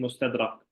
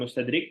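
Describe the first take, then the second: First: The last syllable has the vowel a. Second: The last syllable has the vowel i. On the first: The speaker calls it right. "tapi mustadrak" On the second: The speaker calls it wrong. "bukan mustadrik"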